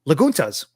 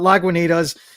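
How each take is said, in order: First: The middle 'ni' syllable is left out. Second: The middle 'ni' syllable is clearly said. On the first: It copies how someone else says it. "I'm gonna pronounce it as how she pronounces it" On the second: It is the speaker's own correction.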